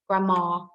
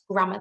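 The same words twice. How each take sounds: First: The final syllable has a full, exaggerated ar vowel. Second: The final syllable has a weak, reduced vowel. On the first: The speaker calls it wrong. "but I don't say it like that" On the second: The speaker calls it right. "It's grammar though"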